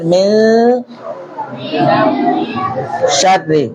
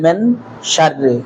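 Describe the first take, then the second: First: The n is hidden and nasalized before sh. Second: The n is pronounced clearly before sh. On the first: The speaker calls it right. "এই রটা চিকন বারিক হবে, আওয়াজ ছোট হবে, বলেন মিন শাররি" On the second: The speaker calls it wrong. "তারা ইকফা জানেন না"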